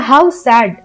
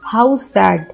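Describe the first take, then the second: First: It is said in a happy, cheerful tone. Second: It is said in a sad, sorrowful tone. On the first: The speaker calls it wrong. "हम खुश होकर के नहीं बोलेंगे" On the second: The speaker calls it right. "दुख का भाव प्रकट करें तो हम बोलेंगे"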